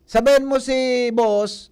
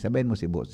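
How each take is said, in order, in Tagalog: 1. Sinabi ito nang malakas ang boses. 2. Sinabi ito nang mahina ang boses. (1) "Makusugon sa boses" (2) "Imbis na para"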